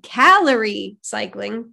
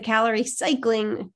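First: "calorie" punched loud and drawn out; stress on CALORIE. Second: "cycling" given the weight instead of "calorie"; stress on CYCLING. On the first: Shown as a demonstration. Host correcting misplaced emphasis, strong stress on "calorie". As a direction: hit "calorie" hard, then ease off "cycling". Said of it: "That's how I meant to emphasize it". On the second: Real, not acted. Host introducing today's topic, stress landing on "cycling". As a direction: lean on the word "cycling". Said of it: "I emphasized the wrong word".

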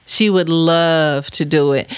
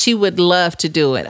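First: "She would love to do it" slowed right down, LOVE drawn out; emphatic repeat. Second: Said in the usual way. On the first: Real, not acted. Host assuring a listener about her daughter, LOVE slow and drawn out. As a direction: stretch the word "love" slowly for emphasis.

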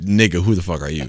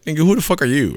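First: Said in the usual way. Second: High-pitched, indignant comeback; affronted high-voiced question; incredulous challenge. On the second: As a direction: throw it out high, in disbelief. Acts out his challenge to stranger.

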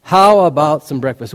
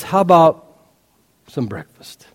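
First: Said in the usual way. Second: Tender offer. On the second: Shown as a demonstration.

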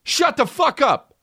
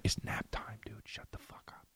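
First: High, drawn-out scolding shout; exasperated yell. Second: Imitating an annoyed classmate whispering; whispered telling-off. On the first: Real, not acted. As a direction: snap at the dog at the top of your range. Yelling at his noisy dog. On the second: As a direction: hush them in an irritated whisper. Classmate hushes them during nap time.

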